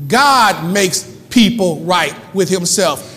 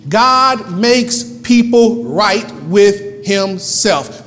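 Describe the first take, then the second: First: GOD punched, then "makes people right with himself" in slow steps; slow, firm restatement of the verse; emphatic repeat. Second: Each word of "God makes people right with himself" separated; very slow, weighty verse reading; word-by-word emphasis. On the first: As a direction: hit GOD hard and let the rest follow deliberately. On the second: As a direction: stretch GOD and space out every word after it. Key verse read word by word. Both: Acted.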